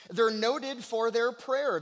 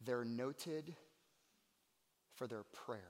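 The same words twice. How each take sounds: First: Raised, emphatic sermon voice; ringing repeat to the congregation; forceful preaching. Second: Soft, low and reverent; quiet, weighty sermon aside; hushed preaching. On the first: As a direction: preach the line out loud and high. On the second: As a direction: drop the line down to a hush. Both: Real, not acted. Preacher repeats line, hushed then forceful.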